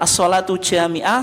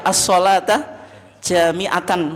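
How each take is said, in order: First: The phrase ends with the sound -ah. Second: The phrase ends with the sound -atan. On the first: The phrase is read with a pause at the end. "Kalau diwakafkan" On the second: The phrase is in the accusative case. "kalau dibaca mansub"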